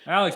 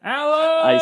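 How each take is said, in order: First: The name is said at a normal volume. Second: The name is yelled loudly.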